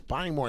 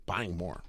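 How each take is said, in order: First: Higher blunt Buying more, like a caveman; caveman grunt. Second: Said in the usual way. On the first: Shown as a demonstration. Streamer mocking himself as a caveman, blunt grunt. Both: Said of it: "I sound like a caveman".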